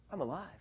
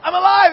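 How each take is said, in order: First: Softly, as a dawning thought; quiet realization. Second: High, very loud exclamation; excited shout. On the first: Boy finds himself unhurt after the fall, quietly stunned. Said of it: "And so I'm thinking". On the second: Boy insists to scolding grandma, high jubilant shout. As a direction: yell it over the scolding. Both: Retold or imitated.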